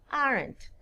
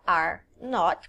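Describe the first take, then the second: First: It is said as one contracted word. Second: It is said as two separate full words. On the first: "eu falo aren't" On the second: "que são duas palavras"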